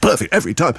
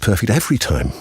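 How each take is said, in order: First: Every word gets strong stress. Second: Only the word every gets strong stress. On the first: "you're trying to stress every word" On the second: "could you lean on the word every?"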